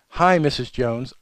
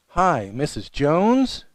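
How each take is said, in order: First: The voice falls at the end. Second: The voice rises at the end. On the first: The caller sounds confident. The speaker calls it right. "You want to sound very confident in the call" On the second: The caller sounds afraid and unsure. The speaker calls it wrong. "ending every sentence with, ... or "Missus Jones?" it sounds like fear"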